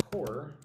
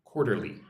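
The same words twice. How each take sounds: First: Quarterly said soft and careful, syllables clear; softly modelled word. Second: Said in the usual way. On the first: Shown as a demonstration. Teacher shows students how to say it, soft and careful. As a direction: model Quarterly gently for learners to copy. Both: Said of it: "Say it like this".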